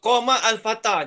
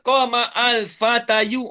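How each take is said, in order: First: The last word ends with a plain 'ah' sound. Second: The last word ends with a spoken 'ayu' ending. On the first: The speaker calls it right. "Dia sebut qama al-fatah je" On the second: The speaker calls it wrong.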